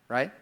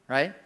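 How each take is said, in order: The two takes are said the same way.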